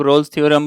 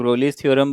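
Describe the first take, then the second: First: रोल्स theorem with one short syllable, "rolls"; Rolle's said short. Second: रोलीज theorem with two syllables, "ro-lees"; Rolle's said long. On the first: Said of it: "कुछ लोग रोल्स theorem बोलते हैं". (रोल्स को एक छोटे शब्दांश में बोलें) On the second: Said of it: "कुछ लोग रोलीज थ्योरम बोलते हैं". (रोलीज को दो शब्दांशों में "रो-लीज़" बोलें) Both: Shown as a demonstration.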